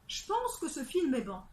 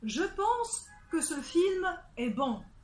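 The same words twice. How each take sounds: First: The e of je is dropped. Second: The e of je is pronounced.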